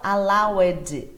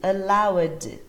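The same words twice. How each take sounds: First: An extra vowel is sounded before the final D. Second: It ends with only a D sound. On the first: The speaker calls it wrong. "não allowed" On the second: The speaker calls it right. "É só o som do D mesmo"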